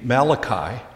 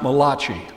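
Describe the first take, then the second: First: The name is pronounced the plain English way. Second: The name is pronounced with an Italian-sounding form. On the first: The speaker calls it right. "that is the correct pronunciation of the name" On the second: The speaker calls it wrong. "He's not an Italian, so his name is not Malachi"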